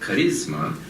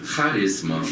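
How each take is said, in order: First: The stress is not on the first syllable. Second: The stress is on the first syllable. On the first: It is the English word for personal appeal. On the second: It is the Greek word for a spiritual gift.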